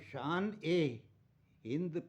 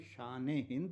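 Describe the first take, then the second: First: The 'e' is said as a separate word. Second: The 'e' is joined onto the first word. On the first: The speaker calls it wrong. "अगर उसको पढ़ेंगे हम तो शान ए हिंद पढ़ा जाएगा, जो गलत है" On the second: The speaker calls it right. "शब्द तो शान हिंद है"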